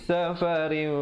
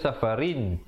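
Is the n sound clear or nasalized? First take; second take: nasalized; clear. First: The n sound is hidden and nasalized. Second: The n sound is pronounced clearly. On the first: The ending is concealed before the next sound. "bila datang fa jadi safarin, ikhfa" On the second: This is the word's original form. "Asalnya safarin"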